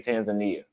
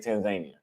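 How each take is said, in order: First: The name is said with an American pronunciation. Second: The name is said with a Tanzanian pronunciation. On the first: The speaker calls it wrong. "Americans say" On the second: The speaker calls it right. "Tanzanians say"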